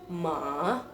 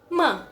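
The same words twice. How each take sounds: First: The pitch dips down, then rises. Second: The syllable is said with strong emphasis. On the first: "ada penekanan ke bawah terus ke atas" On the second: "ada penekanan"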